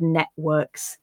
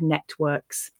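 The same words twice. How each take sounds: First: The middle 't' is replaced by a catch in the throat. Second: The middle 't' is clearly pronounced. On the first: "replace that sound with a stop in my throat" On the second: "I pronounced that sound"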